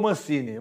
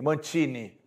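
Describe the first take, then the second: First: The middle consonant sounds like s. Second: The middle consonant sounds like ch. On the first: This is the usual local way of saying the name. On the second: This is the new way people will now say the name.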